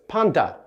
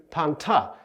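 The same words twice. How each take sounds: First: "panta" with the t softened to a d; T voiced like D. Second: "panta" with a true t sound, not d; clear T. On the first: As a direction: say "panta" as panda, d after the n. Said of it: "more like a D". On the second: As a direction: say "panta" with a crisp t after the n. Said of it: "as opposed to panta". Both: Shown as a demonstration.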